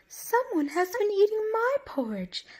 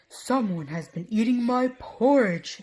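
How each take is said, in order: First: It is said in a middle-sized voice. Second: It is said in a great big voice.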